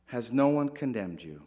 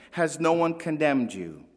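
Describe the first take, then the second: First: Soft tender repeat. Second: Said in the usual way. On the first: Retold or imitated. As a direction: lower and softer, gently repeated. Same question repeated, softer.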